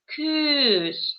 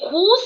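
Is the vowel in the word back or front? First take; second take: front; back. First: The vowel is a softer, fronted ü sound. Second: The vowel is a plain back u sound. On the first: The speaker calls it right. "а күз" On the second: The speaker calls it wrong. "не куз говорим"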